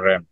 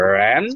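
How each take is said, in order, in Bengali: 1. এই অক্ষরে সুর নিচে নামে। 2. এই অক্ষরে সুর ওপরে ওঠে। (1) "বাট এটা ফোর্থ টোনের র্যান" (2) "ওইটা হচ্ছে র্যান সেকেন্ড টোনে"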